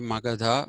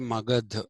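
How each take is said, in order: First: The name is said in a non-Hindi way. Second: The name is said in the Hindi way. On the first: "they don't say Magadha" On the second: "In Hindi, they say Magad"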